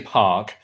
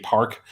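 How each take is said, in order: First: It is said in the speaker's own accent. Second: It is said in an American accent. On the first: "I say park" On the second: "If I'm if I'm being American, I might say park"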